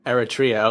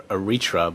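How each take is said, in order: First: "Eritrea" as eh-rih-TREE-uh, four syllables; corrected pronunciation. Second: "Eritrea" as uh-REE-truh, three syllables; mistaken pronunciation. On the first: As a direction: stress TREE in "Eritrea", ending on a clear "uh". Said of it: "emphasis on the wrong syllable". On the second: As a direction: stress REE and shorten the end of "Eritrea" to "truh". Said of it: "I always thought it was pronounced". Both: Shown as a demonstration.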